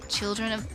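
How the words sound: It is said in the loser character's voice.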